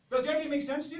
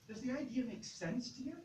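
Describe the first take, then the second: First: It sounds certain and sure. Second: It sounds uncertain and hesitant.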